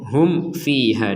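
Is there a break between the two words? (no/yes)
no. The two words run together without a break. The speaker calls it right. "langsung aja disambung"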